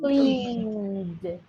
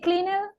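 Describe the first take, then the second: First: The ending is just a d sound. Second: The ending is said as an extra syllable. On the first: The speaker calls it right. "What is the correct one?" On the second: The speaker calls it wrong. "Can I say cleaner?"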